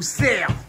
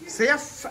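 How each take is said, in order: First: The final f sound is left silent. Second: The final f sound is pronounced.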